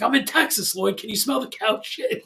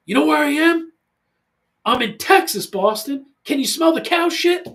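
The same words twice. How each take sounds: First: Lightly raised, quoting Ari Gold; a hint of Ari Gold's brag. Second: Loud, high mock yell at son; playful shout into the phone to son. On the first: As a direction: toss off the Entourage line as Ari. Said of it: "Ari Gold does it in, in Entourage". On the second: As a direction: yell it down the line, half joking. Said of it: "kinda yell at him".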